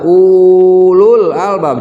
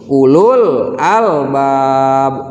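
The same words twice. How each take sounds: First: The vowel in 'ulul' is drawn out long. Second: The vowel in 'ulul' is kept short. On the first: The speaker calls it wrong. "jangan dibaca panjang, jangan dibaca ulul albab" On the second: The speaker calls it right. "tapi langsung ulul albab"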